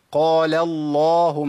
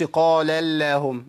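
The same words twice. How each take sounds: First: Slow قال اللهم with thick, dark L; deliberate 'qaala-llaahum', L heavy; heavy lam. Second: قال اللهم with a light, thin L; faulty 'qaala-llaehum', fronted vowel after L; thinned lam. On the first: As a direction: stretch a velarized 'LLAA' in اللهم. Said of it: "يبقى اقول ايه؟". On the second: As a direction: flatten اللهم to a light 'lae'. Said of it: "ما اقولش قال اللهم". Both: Shown as a demonstration.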